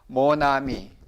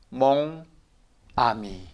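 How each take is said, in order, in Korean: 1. 마지막 n이 다음 모음과 이어져요. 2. 두 단어는 따로 발음해요. 연음은 없어요. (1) "모, 나, 미 이렇게 발음이 되는 거예요" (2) "몽, 아미 이렇게 읽죠"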